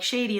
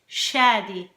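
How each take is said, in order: First: It sounds like the English word shady. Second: It is said the Arabic way, unlike shady. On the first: The speaker calls it wrong. "it's not shady, like shady, like [name]" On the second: The speaker calls it right. "in Arabic ... It's [name]"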